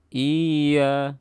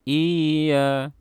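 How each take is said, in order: No difference in how they are said.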